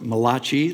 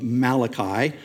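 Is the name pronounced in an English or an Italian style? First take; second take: Italian; English. First: The name is pronounced in an Italian-sounding way. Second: The name is pronounced in a plain English way.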